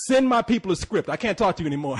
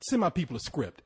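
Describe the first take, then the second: First: Loud, higher, insistent brush-off; imitated firm dismissal. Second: Said in the usual way. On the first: Spike Lee dismissing the Ethiopian woman, loud retold brush-off. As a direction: cut the person off, loud and high, as imitation.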